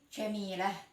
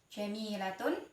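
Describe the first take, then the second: First: The word ends cut short with -ah. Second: The word ends with a full -tun ending. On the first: The reader stops on the word. "ketika berhenti" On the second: The word is joined to what follows. "ketika disambung"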